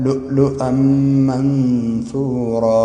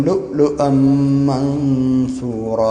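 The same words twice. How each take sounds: No difference in how they are said.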